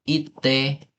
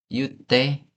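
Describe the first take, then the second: First: The word begins with a plain 'i' sound. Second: The word begins with a 'yu' sound. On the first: This follows the written form. The speaker calls it wrong. "bu- bukan ite" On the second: This is how people really say it. The speaker calls it right. "tapi yute"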